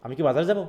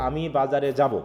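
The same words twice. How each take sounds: First: "আমি কি বাজারে যাব" rising on যাব; question intonation. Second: "আমি বাজারে যাব" as a plain statement; assertive statement. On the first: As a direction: ask it, lifting the final word "যাব". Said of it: "ইন্টোনেশনেই বলে দিবে যে এটা একটা কোশ্চেন". ("যাব" শব্দে সুর তুলে প্রশ্ন) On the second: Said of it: "এটা just একটা অ্যাসার্টিভ". ("আমি বাজারে যাব" সাধারণ বিবৃতির সুরে) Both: Shown as a demonstration.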